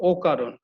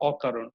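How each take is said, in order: First: অকারণ starting with a rounded o, "okaron"; wrong rounded vowel. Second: অকারণ starting with an open ɔ, "ɔkaron"; correct open vowel. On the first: Teacher shows students the wrong form, o-sound অকারণ. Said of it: "আমরা নিশ্চয়ই বলি না যে". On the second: Teacher gives students the right form, open-vowel অকারণ. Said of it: "আমরা বলি হচ্ছে অকারণ". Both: Shown as a demonstration.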